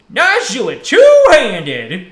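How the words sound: It is said in a funny old-man voice.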